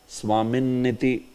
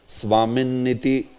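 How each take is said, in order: The two takes are said the same way.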